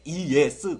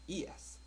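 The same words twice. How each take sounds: First: It is said too loudly and forcefully. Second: It is said softly and lightly. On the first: The speaker calls it wrong. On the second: The speaker calls it right.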